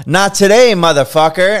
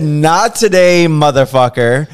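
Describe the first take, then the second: First: Higher and louder defiant yell; cocky shout. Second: Louder, slower mocking yell; retold yell. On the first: Retold or imitated. Artist yelling at the drunk client's call, cocky shout. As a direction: yell it at the phone with swagger. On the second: Artist retelling how he yelled at the client, mock yell. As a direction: jeer it out slowly in triumph. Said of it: "I just screamed this man's first and last name".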